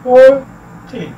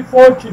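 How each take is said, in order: First: four, pause, टी; two separate syllables, four and टी; split into syllables. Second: four टी run together, weight on four; FOR-ty, first syllable stressed in four टी. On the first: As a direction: sound out four टी in halves. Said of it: "divide करें syllabus में". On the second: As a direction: hit four, lighter टी. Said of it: "stress जिस पे किया जाता है four है". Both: Shown as a demonstration.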